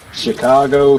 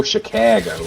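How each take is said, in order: First: Chicago said in his everyday way; the usual Chicago, nothing forced; plain Chicago. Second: "Chicago" pitched up with a flat, strained "cag"; forced Chicago. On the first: Telling friends about a coworker's Chicago, said plainly. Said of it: "it's two separate things". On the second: Mocking the coworker's forced Chicago, strained and pitched up. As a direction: push "Chicago" out like a put-on accent. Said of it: "it's almost sounds like it's forced". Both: Shown as a demonstration.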